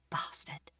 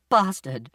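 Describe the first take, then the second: First: Very soft whisper, almost no voice; whispered curse. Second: The curse said out loud; voiced curse. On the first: Mother cursing after apologising to her son, whispered. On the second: Mother repeating her curse aloud, with feeling. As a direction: voice the swear word firmly, no whisper. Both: A narrator's reading.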